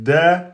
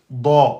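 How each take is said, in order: First: The letter is pronounced light and thin. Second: The letter is pronounced heavy and emphatic. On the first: The speaker calls it wrong. "c'est faux" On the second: The speaker calls it right. "c'est bon"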